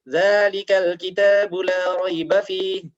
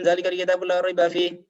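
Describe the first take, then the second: First: Fast, with long and short vowels kept distinct. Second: Fast, with all vowels the same length. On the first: The speaker calls it right. "Ini sekalipun cepat tapi masih ada panjang pendeknya" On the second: The speaker calls it wrong. "Ini enggak ada panjang pendeknya sama sekali"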